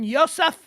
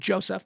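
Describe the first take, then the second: First: The name is given a non-American pronunciation. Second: The name is given the usual American pronunciation. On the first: The speaker calls it wrong. "Actually, no, he's an American" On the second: The speaker calls it right. "he's an American, so we're going to pronounce it Joseph"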